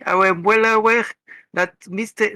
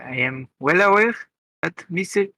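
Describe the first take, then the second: First: It is said in a jokey put-on voice. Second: It is said in the speaker's normal voice.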